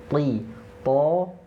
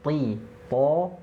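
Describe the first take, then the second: The two takes are said the same way.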